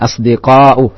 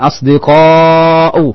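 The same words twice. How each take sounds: First: The vowel before the hamza is held only briefly. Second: The vowel before the hamza is held very long. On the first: This is the ordinary reading outside the Quran. "hanya cukup berapa harokat ya, kawan? Dua saja" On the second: This is the Quranic recitation reading. "kalau dalam Al-Quran begini"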